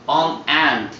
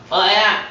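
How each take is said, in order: First: An n sound links the article to the vowel. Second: The article runs straight into the vowel, no n. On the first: The speaker calls it right. "on ant 이렇게 되는 거예요" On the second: The speaker calls it wrong. "어안 이상하잖아요"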